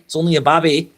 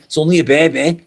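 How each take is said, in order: First: "babby" with a short a, as in cab; cutesy "babby". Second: Said in the usual way. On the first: Acted. Mock-cooing over a tarantula, cutesy "babby" with short a. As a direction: say "babby" for baby, rhyming with tabby.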